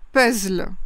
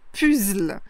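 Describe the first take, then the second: First: It sounds between the English and spelling-based forms. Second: It is pronounced closely following the French spelling. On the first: "l'intermédiaire entre les deux" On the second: "ça se rapproche plus de la prononciation qui est proche de l'orthographe"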